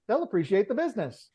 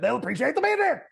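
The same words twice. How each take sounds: First: The line is delivered in a plain, understated manner. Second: The line is delivered in an exaggerated, over-the-top manner. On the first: "the regular actor, the Australian actor is like" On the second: "the dubbed version was so over the top"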